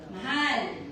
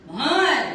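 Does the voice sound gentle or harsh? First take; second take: gentle; harsh. First: The word is said in a gentle tone. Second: The word is said in a harsh tone. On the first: The speaker cares. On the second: The speaker does not care.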